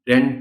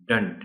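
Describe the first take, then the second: First: The vowel sounds like the e in bed. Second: The vowel sounds like the u in but. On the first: The speaker calls it wrong. "डेंट नहीं" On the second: The speaker calls it right. "इसको कहना डंट है"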